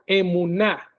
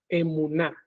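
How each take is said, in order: First: Said in the usual way. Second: Emuná said with the stress on the last syllable, e-mu-NÁ; stress on final A. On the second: Shown as a demonstration. Teacher shows how to pronounce the Hebrew word, final A stressed. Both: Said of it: "con acento en la A".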